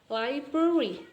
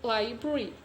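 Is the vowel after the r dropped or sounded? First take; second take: sounded; dropped. First: The vowel after the r is sounded. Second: The vowel after the r is dropped. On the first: "this is actually chocolate and library" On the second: "and the a here from the library to library"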